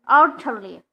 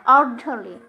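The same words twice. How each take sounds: The two takes are said the same way.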